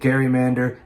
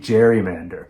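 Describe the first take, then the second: First: The word begins with a hard G sound. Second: The word begins with a J sound. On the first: This is the original pronunciation, after the surname Gerry. The speaker calls it right. "people stopped pronouncing it gerrymander" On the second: This is the later pronunciation that replaced the original. The speaker calls it wrong. "started saying gerrymander"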